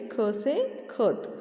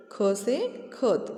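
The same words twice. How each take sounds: First: Said in the usual way. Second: Very slow classroom spelling; slow, syllable-by-syllable. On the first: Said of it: "same words in the sentence". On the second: Shown as a demonstration. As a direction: draw out each sound for children. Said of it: "teacher spells out the word slowly".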